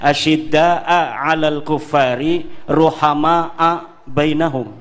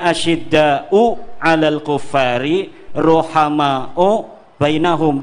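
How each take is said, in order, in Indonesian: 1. Asyidda dan ruhama berakhir dengan vokal a. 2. Asyidda dan ruhama berakhir dengan vokal u. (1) "bisa dibaca dengan nasab, asyidda juga dibacanya nasab" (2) "Yang biasanya kan dibacanya"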